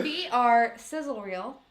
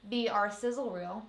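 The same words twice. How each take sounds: First: "B R sizzle reel" slow, each letter distinct; clear enunciation. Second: "B R" slurred into one mumble. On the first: Shown as a demonstration. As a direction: spell out "B R" carefully and slowly. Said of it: "Did I really mess that up and slur that?". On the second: Real, not acted. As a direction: run "B R sizzle reel" together. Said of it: "mess that up and slur that".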